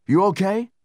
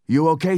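First: "you" stressed, high, loud, rising; loud worried "You okay?" leaning on "you". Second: "okay" stressed, high, loud, rising; loud worried "You okay," with rise on "okay". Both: Acted. Frightened comrade checking on friend.

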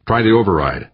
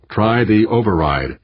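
First: Said in the usual way. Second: "Try the override" slowed right down, each word weighted; insistent repeat. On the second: A narrator's reading. Skipper overruling crewman's objection, "Try the override" slow and insistent. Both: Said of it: "the skipper repeated".

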